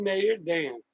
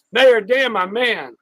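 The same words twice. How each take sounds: First: Said in the usual way. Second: Loud, high call of the name; big excited greeting; hyped shout-out. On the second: Real, not acted. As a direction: call him out like a hype man.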